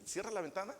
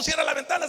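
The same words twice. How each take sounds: First: Much softer, gentle "cierra la ventana"; soft sweet "cierra la ventana"; soft gentle request. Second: "cierra la ventana" shouted much higher and louder; angry bark of "cierra la ventana"; shouted order. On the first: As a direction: say "cierra la ventana" kindly and quietly. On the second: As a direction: yell "cierra la ventana" as a harsh command. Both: Acted. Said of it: "Pero al contrario".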